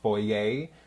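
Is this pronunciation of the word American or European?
European. It is said with a European pronunciation. "the American or European pronunciation"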